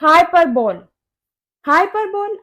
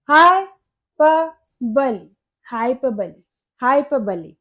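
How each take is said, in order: First: हाइपरबोल as "HI-per-bole", ending like bowl; spelling pronunciation. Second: हाइपरबली as "hai-PUH-buh-lee", broken first, then joined; correct pronunciation. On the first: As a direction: read हाइपरबोल as spelt, long o. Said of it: "आप भी इसको हाइपरबोल पढ़ रहे हैं". (हाइपरबोल, आख़िर में लंबा "बोल") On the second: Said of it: "इसी करेक्ट प्रोनाउंसिएशन है". (हाइपरबली, आख़िर में "बली") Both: Shown as a demonstration.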